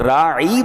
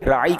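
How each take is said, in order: First: The vowel is stretched out long. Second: The word is said plainly, without stretching. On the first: It means a shepherd, said with disrespect. The speaker calls it wrong. "अगर राई बना दे कोई" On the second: Please show us consideration. The speaker calls it right. "राई का मतलब हमारी रियायत कीजिए"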